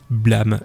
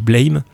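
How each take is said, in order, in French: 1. Le mot ne se prononce pas comme l'anglais 'blame'. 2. Le mot se prononce comme l'anglais 'blame'. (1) "mais non, en fait, ça se dit blame" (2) "ça ressemblait à un mot anglais"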